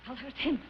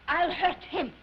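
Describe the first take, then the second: First: Lower, softer brooding vow; quiet resolve. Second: Emphatic vow of revenge; defiant resolve. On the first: Singer plotting to hurt impresario, quiet and brooding. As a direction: turn the threat inward, musing. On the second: Singer turning the tables on impresario, defiant. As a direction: declare the threat firmly. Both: Acted.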